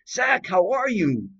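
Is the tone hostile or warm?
warm. It sounds warm and friendly.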